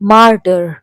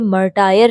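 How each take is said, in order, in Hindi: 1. यह शब्द दो अक्षरों में बोला गया है। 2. यह शब्द तीन अक्षरों में बोला गया है। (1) "इट प्रोनाउंस मार्टर" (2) "मर्टायर नहीं पढ़ेंगे"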